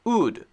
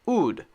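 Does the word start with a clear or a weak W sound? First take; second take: weak; weak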